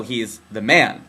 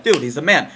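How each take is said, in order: First: Slow, lowered, weighty THE MAN; low, drawn-out label for authority; oppressor "the Man". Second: Easy buddy-to-buddy praise; impressed dude talk; admiring buddy. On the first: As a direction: drag out MAN with heavy meaning. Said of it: "the man holding us down". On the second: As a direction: say it like hailing a pal. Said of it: "we'd be like". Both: Acted.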